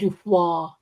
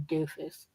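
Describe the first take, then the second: First: The name ends with a wa sound. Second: The name ends with an s sound. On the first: The speaker calls it right. "It's probably like Dufois. ... It's French" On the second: The speaker calls it wrong. "it's probably not even pronounced like that"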